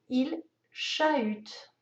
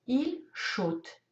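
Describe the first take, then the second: First: The two vowels are said as separate sounds. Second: The two vowels merge into one o sound. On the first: The speaker calls it right. "Le H va séparer le A et le U" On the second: The speaker calls it wrong. "Le A et le U se lisent ensemble. Ils font le son O"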